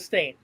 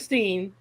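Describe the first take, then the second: First: The vowel is an 'ay' sound. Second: The vowel is an 'ee' sound. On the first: The speaker calls it right. "It was the Stain" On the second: The speaker calls it wrong. "Not the Steen"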